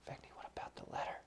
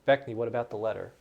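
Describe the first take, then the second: First: It is said in a quiet whisper. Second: It is said aloud in a louder voice. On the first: Only the person addressed is meant to hear. "I'll try to uh, whisper to Vecni" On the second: Everyone listening is meant to hear. "So louder for the audience"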